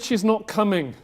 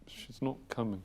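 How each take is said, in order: First: It is said louder and clearer. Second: It is mumbled quietly.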